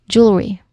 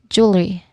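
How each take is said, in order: The two takes are said the same way.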